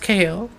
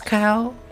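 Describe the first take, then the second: First: It is said as two letter names, kay oh. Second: It is said as one syllable rhyming with now. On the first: "it's K O" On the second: "most of the dubbings pronounce it as cow"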